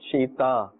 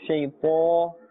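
First: The t sounds light and thin. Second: The t sounds heavy and thick. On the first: The speaker calls it wrong. "not shayta" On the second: The speaker calls it right. "must be pronounced with a thick tone"

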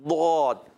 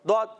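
First: The consonant is held and drawn out. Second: The consonant is released abruptly at once. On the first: The speaker calls it right. "لمبا ہو کر پھر ادا ہوتا ہے" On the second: The speaker calls it wrong. "فوراً نہیں دعد. دعد. یہ غلط"

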